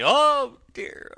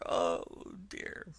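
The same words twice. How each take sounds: First: Very high, loud wailing "Oh dear"; "Oh dear" wailed high and loud; sobbing wail. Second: "oh dear" trailing off to almost nothing; fading sob. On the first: Toad wailing to the driver, very high and loud. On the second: Toad's sob to the driver, trailing away softly. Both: Acted. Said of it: "sobbed Toad".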